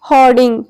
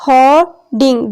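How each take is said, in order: First: Said in the usual way. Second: hoarding split in two, with a pause between hor and ding; syllable division. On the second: Shown as a demonstration. Teacher showing class the syllables, hoarding in two separate beats. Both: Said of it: "syllable की division हम देखते हैं".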